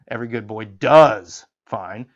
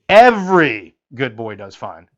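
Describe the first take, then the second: First: The stress falls on the word does. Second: The stress falls on the word every.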